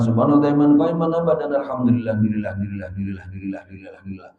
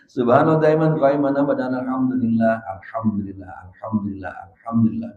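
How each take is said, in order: First: It is recited hurriedly and quickly. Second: It is recited calmly and slowly.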